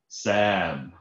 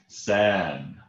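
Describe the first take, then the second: Both takes have the same delivery.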